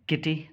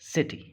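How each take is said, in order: First: The word begins with a k sound. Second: The word begins with an s sound. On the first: The speaker calls it wrong. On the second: The speaker calls it right.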